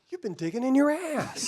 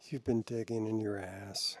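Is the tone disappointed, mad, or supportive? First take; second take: supportive; disappointed. First: It sounds warm and supportive. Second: It sounds disappointed and let down.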